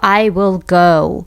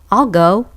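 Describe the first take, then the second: First: Will is said as a separate full word. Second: Will is contracted and joined onto I. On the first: "기본적으로 I will go 이렇게 쓰잖아요" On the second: "붙여서 축약된 발음으로"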